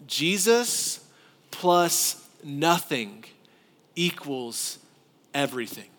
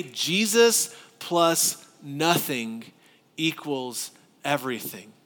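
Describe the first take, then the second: First: Slow, measured emphasis, falling to the end; deliberate pulpit emphasis; emphatic slow formula. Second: Measured repetition for the congregation; emphatic repeat. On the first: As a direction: spell out each word of the formula. Preacher states core message slowly. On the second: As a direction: stress on Jesus, slow and deliberate. Repeats core message. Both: Acted.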